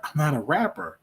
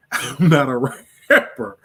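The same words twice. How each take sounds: First: Said in the usual way. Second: Laughing it out, louder and slower. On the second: Real, not acted. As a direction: laugh through the denial, amused. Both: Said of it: "you should get on there and rap".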